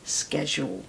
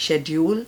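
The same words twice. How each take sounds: First: Schedule said "SKED-jool"; schedule with a hard "sk" start; American schedule. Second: Schedule said "SHED-yool"; schedule with a "sh" start; British schedule. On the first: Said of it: "American is schedule". (American उच्चारण में schedule, "स्केड्यूल") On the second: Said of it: "British English is". (British उच्चारण में schedule, "शेड्यूल") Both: Shown as a demonstration.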